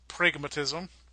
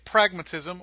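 First: It is said in a Minnesota accent. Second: It is said in a plain accent.

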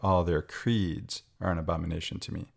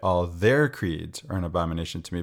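First: The stress falls on the word creeds. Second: The stress falls on the word all. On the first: It is the creeds themselves that are condemned. "but I'm reading it" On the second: Every single one of their creeds is condemned. "I know most read it"

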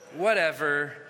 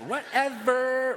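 First: It is said in a plain, normal voice. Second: It is said in a Valley Girl voice.

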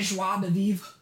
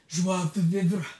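First: The phrase is said in a plain, ordinary way. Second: The phrase is said in an exaggerated, obnoxious way.

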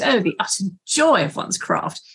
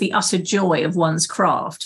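First: It is said in a pretentious character's voice. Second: It is said in the speaker's normal voice.

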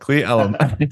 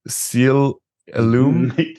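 First: The name begins with a k sound. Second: The name begins with an s sound. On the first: The speaker calls it right. "How do you say that?" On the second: The speaker calls it wrong. "I'm going to say this wrong"

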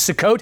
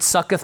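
First: The word ends with a hard 't' sound. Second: The word ends with a soft 'th' sound. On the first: The speaker calls it right. "The proper pronunciation is Sukkot" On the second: The speaker calls it wrong. "I've always pronounced it Succoth"

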